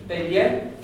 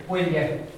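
Both takes have the same delivery.

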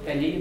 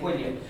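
First: The b goes straight into the vowel, no glide. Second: A w-like glide follows the b before the vowel. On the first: The speaker calls it wrong. "you don't say bwily" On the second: The speaker calls it right. "Is there a glide there? Yeah, ... you say bwily"

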